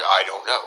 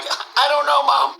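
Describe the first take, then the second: First: Deep, low mumbled answer; dazed reply. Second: Put-on childlike reply. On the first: Retold or imitated. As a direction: answer your friend, lost. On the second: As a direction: answer the lady like a lost child. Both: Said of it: "I'm like".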